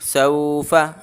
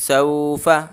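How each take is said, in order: First: The vowels are stretched out long. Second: The vowels are stretched out long.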